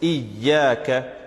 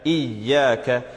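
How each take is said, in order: First: The y sound is doubled and held. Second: The y sound is doubled and held.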